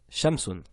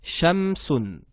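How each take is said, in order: First: Shamsun echoed softer and lower, falling; quiet repeat. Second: Shamsun spoken clearly, pitch rising at the start and falling at the end; Arabic word demo. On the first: (répétition de shamsun plus bas et plus doux) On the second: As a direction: model "shamsun" for students to repeat. (démonstration de shamsun, ton descendant) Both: Shown as a demonstration. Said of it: "harfu shin".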